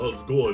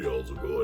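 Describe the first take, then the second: First: It is said in a Brooklyn accent. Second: It is said in a very deep voice.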